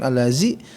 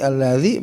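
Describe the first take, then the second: First: The z is a plain buzzing z sound. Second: The z is said with the tongue between teeth. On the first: The speaker calls it wrong. "bukan allazi" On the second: The speaker calls it right. "allazi bukan allazi"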